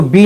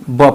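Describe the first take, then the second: First: बी said as the letter name "bee"; बी spoken as the English letter name, long ee; wrong letter name. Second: ब said as a short "buh" sound; ब with a short clipped vowel, not "bee"; right sound. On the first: Teacher shows children the wrong reading, बी as "bee". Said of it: "इसको बी ना पढ़ते हैं". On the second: Teacher shows children the right sound, ब as a short "buh". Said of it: "ब पढ़ते हैं". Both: Shown as a demonstration.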